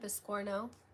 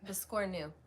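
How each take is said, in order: First: The word ends with an 'o' vowel sound. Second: The word ends with a 'u' vowel sound. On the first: The speaker calls it wrong. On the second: The speaker calls it right.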